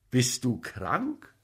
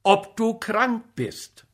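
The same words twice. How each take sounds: First: Slow "Bist du krank?" rising on "krank"; slow, probing question that climbs at "krank". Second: "ob du krank bist" slow and high, stressing "du"; slow, high-pitched insistence on "du krank", dropping at the end; insistent repeat. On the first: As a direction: ask "krank" with a lifted end, at ordinary volume. First asking, before he insists. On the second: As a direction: press the question, "du krank" held high, falling on "bist". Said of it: "Ich frag dich". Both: A narrator's reading.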